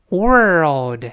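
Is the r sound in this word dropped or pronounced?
pronounced. The r sound is pronounced before the l. "所以世界在美国这么读"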